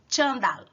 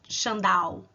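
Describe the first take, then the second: First: The final L sounds like a clear L. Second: The final L sounds like a U. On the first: The speaker calls it right. "o L tem um som de L, não tem som de um U" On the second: The speaker calls it wrong. "Você não pode falar chandal, não se pode"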